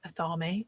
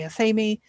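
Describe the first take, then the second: First: It uses a pronunciation common in North America. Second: It uses the pronunciation common in the UK. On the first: "most people in North America seem to say athame" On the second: "I say athame. a lot of people in the U K say that"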